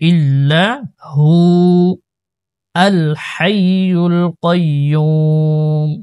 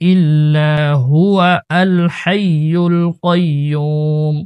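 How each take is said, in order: First: There is a pause before 'al hayyul'. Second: It runs on with no pause before 'al'. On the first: The speaker calls it right. "ইল্লাহু বলে অক্ষ করে দিবেন, তারপরে আল হাইয়ুল কাইয়্যুম পড়বেন" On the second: The speaker calls it wrong. "মিলায় পড়ার সময় এভাবে পড়ে"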